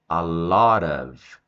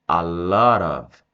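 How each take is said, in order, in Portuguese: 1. As palavras se juntam e formam uma única unidade ligada. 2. As palavras se juntam e formam uma única unidade ligada.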